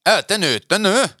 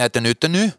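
First: High, louder mock-irritated question; hammed-up impatience, pitch leaping up; irritated straining man. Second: Lightly acted question, pitch rising at the end; mildly put-on questioning voice; man's question. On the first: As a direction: imitate an annoyed man pushing hard. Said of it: "man kan mærke, han er irriteret". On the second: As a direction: imitate a man asking, lilting upward. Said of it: "og siger han".

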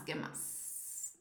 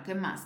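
First: Breathy whisper, muttered; whispered to herself. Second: Said in the usual way. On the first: Real, not acted. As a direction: whisper it to yourself while thinking. Repeats question under her breath.

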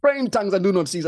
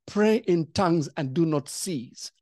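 First: Urgent command. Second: Calm command. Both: Retold or imitated. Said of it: "I heard the Holy Spirit say".

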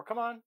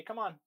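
First: "Come on" called out high and loud; called cue. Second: Casual, easy "Come on"; relaxed recall call to a dog; relaxed cue. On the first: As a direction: call the dog in, brisk. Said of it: "but then I could also say". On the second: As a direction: toss off "Come on" lazily. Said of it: "that's more lazy. That's more relaxed". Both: Shown as a demonstration.

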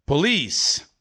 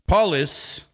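First: "police" stressed as po-LEECE; "police" with a long, stressed final LEECE; stress on second syllable. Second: "police" wrongly stressed as PO-lis; "police" said like POL-iss, front-stressed; stress on first syllable. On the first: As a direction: keep the first syllable of "police" short, lengthen the second. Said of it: "Se você acha que é". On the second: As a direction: hit the first syllable of "police", leave the second short. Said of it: "se você acha que é". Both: Shown as a demonstration.

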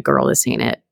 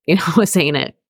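First: Low, knowing, sassy verdict; sassy inner voice. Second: Said in the usual way. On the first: Retold or imitated. Her gut at job interviews: sassy, low dismissal. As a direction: drop way down and shut it down. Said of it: "my intuition was just being like".

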